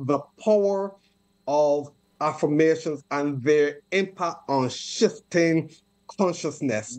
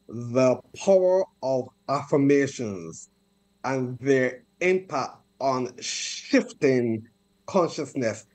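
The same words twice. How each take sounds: First: It is said at a normal pace. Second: It is said slowly and deliberately.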